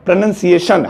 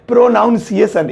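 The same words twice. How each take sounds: First: The second syllable sounds like 'nun'. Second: The second syllable sounds like 'noun'. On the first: The speaker calls it right. "प्र नन नन नन नन सीए सीए सन नहीं शन" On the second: The speaker calls it wrong. "ज्यादातर लोग या मुझ समित मुझ जैसे गवार यही बोलते हैं"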